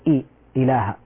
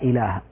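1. الحركة الأولى ممدودة. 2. الحركة الأولى قصيرة.

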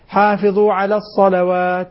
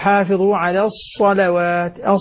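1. لا يُنطق الصاد بصفير واضح. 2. يُنطق الصاد بصفير حاد.

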